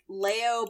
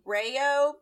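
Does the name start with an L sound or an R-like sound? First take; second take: L sound; R-like sound. First: The name begins with a clear L sound. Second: The name begins with a Japanese R-like sound. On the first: This is the English-speaking fandom's version of the name. "it's like Leo" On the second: This is the Japanese version of the name. "but also Rayo because Japanese"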